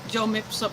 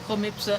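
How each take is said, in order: First: The name begins with a J sound. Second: The name begins with an H sound. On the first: This is how other people say the name. The speaker calls it wrong. "Others pronounce it Jomipsa" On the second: This follows Spanish pronunciation. The speaker calls it right. "it is actually Homipsa if you want correct Spanish pronunciation"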